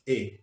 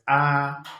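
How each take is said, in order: First: The vowel is said short, not drawn out. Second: The vowel is drawn out and held longer. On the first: The speaker calls it wrong. "you don't call it A" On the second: The speaker calls it right. "You elongate the pronunciation"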